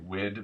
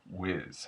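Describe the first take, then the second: First: The word ends with a 'd' sound. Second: The word ends with a 'z' sound. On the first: The speaker calls it wrong. "I want to say wid" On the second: The speaker calls it right. "it's actually closer to whiz"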